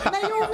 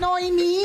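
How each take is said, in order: First: The name is said as Na-o-mi. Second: The name is said as No-e-mi. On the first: The speaker sounds educated. The speaker calls it right. "Naomi talaga yun" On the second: The speaker sounds unrefined. The speaker calls it wrong. "hindi yun Noemi"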